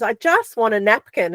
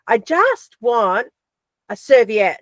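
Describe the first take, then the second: First: Said in the usual way. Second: "I just want a serviette" drawn out slowly, each word spaced; slow, insistent. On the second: Retold or imitated. Girlfriend asking overseas for a serviette again, slow and insistent. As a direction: spell it out slowly, losing patience. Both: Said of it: "she'd go".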